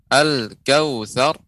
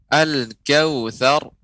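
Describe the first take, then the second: Both takes have the same delivery.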